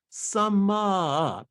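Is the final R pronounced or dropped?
dropped. The vowel is stretched, with no final R.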